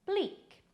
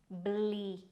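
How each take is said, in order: First: Said in the usual way. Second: "bleak" stretched on the ee; slow, careful "bleak"; drawn-out pronunciation. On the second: Shown as a demonstration. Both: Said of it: "Pronounced as".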